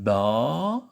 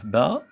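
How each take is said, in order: First: The vowel is said long. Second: The vowel is said short.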